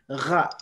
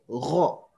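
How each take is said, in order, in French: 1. Le r est simple, avec un a clair. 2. Le r est emphatique, avec un o sombre. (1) "on ne dira plus ra" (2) "ce qu'on doit dire, c'est ro"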